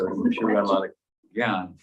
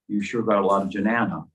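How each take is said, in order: First: The last word is said with one syllable. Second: The last word is said with three syllables. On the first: The speaker calls it right. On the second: The speaker calls it wrong.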